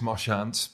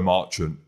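First: The name is pronounced the French way. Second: The name is pronounced the English way. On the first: The speaker calls it wrong. "in your French it is Marchant" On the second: The speaker calls it right. "but in English it's Joe Marchant"

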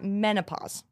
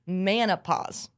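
First: The first syllable sounds like 'men'. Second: The first syllable sounds like 'man'. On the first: The speaker calls it right. "not menopause" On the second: The speaker calls it wrong. "I thought it was manopause"

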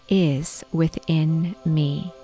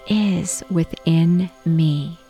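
The two takes are said the same way.

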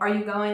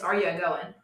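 First: Going is said plainly with its final G. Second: Going loses its G and gains a leading A. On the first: "instead of saying" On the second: "Taking the G off words, ... we'll add an A to that word"

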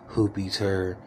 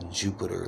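First: The name begins with an h sound. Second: The name begins with an English j sound. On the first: The speaker calls it right. "It's pronounced Hoopiter" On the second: The speaker calls it wrong. "It's Jupiter, like the planet. And it's not pronounced that"

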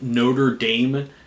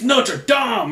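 First: It is pronounced the anglicized college way. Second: It is pronounced the French way. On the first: The speaker calls it wrong. "because that's what the college is called" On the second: The speaker calls it right. "how to pronounce it in French"

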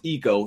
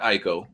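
First: The first vowel sounds like 'ee'. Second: The first vowel sounds like 'eye'. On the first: The speaker calls it right. "It's pronounced Eco" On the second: The speaker calls it wrong. "not Ico"

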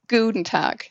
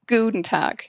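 First: The u in Guten is drawn out. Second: The u in Guten is drawn out.

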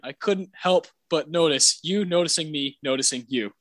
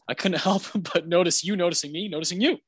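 First: The sentence is said at a slow pace. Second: The sentence is said at a quick pace. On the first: "when you say it slowly" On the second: "his delivery is so good"

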